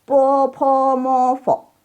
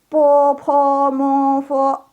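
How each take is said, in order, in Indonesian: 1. Suku kata terakhir turun. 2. Semua suku kata tetap tinggi. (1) "Fo-nya jangan turun" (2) "semua nadanya tinggi"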